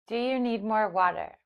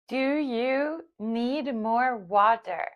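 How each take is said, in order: First: It is spoken at normal speed. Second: It is spoken slowly. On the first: "at normal speed"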